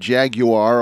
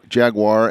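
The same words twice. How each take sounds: First: Jaguar is said in a British accent. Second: Jaguar is said in an American accent.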